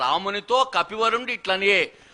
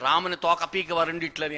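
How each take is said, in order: First: The break comes after 'ramunito', then 'kapivarundi'. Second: The break comes after 'ramuni', then 'toka'.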